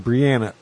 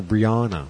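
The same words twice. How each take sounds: First: "Brianna" with middle vowel as in "Ann"; Brianna with short a. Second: "Brianna" with middle vowel as in "father"; Brianna with broad a. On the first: Shown as a demonstration. Giving the niece's usual name, "Brianna" as bree-ANN-uh. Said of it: "It's always been Brianna". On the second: Retold or imitated. Quoting what people now call the niece, "Brianna" as bree-AH-nuh. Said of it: "some people are calling her".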